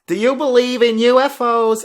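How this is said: It is said in an imitated character voice.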